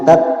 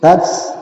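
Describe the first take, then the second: First: The consonant is a plain t, no hiss. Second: The consonant has a soft hissing sound. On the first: The speaker calls it wrong. "jangan tat" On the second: The speaker calls it right. "tapi ada suara desis"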